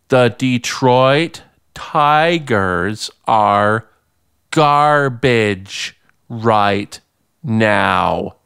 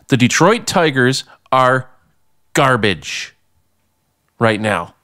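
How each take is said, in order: First: It is said slowly. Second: It is said at normal speed.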